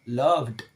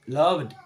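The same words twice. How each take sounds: Both takes have the same delivery.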